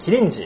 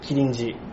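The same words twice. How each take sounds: First: The pitch of the name rises. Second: The pitch of the name falls. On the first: "上がる感じ" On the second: "下がってる"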